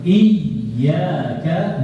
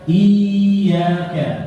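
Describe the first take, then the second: First: The 'y' is said as a doubled consonant. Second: The 'y' is said as a long vowel. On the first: The speaker calls it right. "Harusnya ya sukun" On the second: The speaker calls it wrong. "Yang tidak boleh iyaka"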